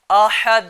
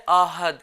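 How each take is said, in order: First: آحد with a forceful throat h, louder; correct strong ha. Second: آحد with a light, plain h; small ha mistake. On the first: Teacher models for children, loud آحد with strong ح. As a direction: push the ح in آحد hard from the throat. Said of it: "پڑھنا کیسے؟". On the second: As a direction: say آحد with a weak English-like h. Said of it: "چھوٹے ہاں سے پڑھتے ہیں". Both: Shown as a demonstration.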